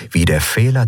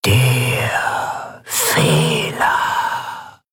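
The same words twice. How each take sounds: First: Said in the usual way. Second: Extremely slow, stretched words; very slow, ominous repetition with a long pause; drawn-out echo. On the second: A narrator's reading. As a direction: let each word linger and fade. Phrase repeated as lingering echo.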